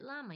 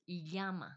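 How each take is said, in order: First: Llama with a plain L, LAH-ma; English llama. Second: Llama opening on a Y, YA-ma; Spanish llama. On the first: Showing how English speakers say it, llama as LAH-ma. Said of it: "In English, we pronounce it". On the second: Showing how Spanish speakers say it, llama as YA-ma. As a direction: say llama as 'YA-ma'. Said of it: "But with them". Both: Shown as a demonstration.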